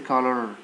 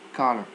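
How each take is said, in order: First: The weak vowel is a full, clear vowel. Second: The weak vowel is a relaxed schwa sound. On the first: The speaker calls it wrong. "Don't say" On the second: The speaker calls it right. "They are pronounced uh"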